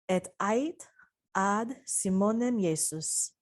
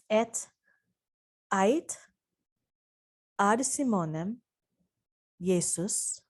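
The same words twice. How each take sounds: First: It is read at a normal pace. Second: It is read a little more slowly.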